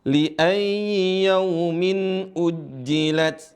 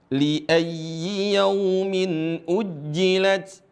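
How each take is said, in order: Both takes have the same delivery.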